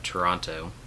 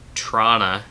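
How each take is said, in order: First: It is said the way outsiders say it. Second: It is said the way locals say it. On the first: This is how non-residents say the name. The speaker calls it wrong. "not Toronto" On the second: This is how residents say the name. The speaker calls it right. "the phonetic, uh, you know, pronunciation for Toronto"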